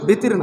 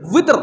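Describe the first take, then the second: First: The word begins with a b sound. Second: The word begins with a w sound. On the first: The speaker calls it wrong. "আসলে বেতের না" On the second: The speaker calls it right. "এটার আরবি উচ্চারণ হচ্ছে উইতরুন"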